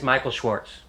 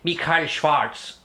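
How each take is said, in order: First: The name is said with plain English sounds. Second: The name is said with German sounds.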